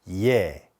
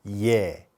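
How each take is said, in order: Both takes have the same delivery.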